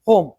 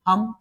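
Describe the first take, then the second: First: The vowel is long, like in 'roam'. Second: The vowel is short, like in 'hum'. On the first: This is how the word is actually read. "इसको बोलेंगे होम" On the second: This follows the way the similar word is read. "H O M E को क्या बोलना चाहिए"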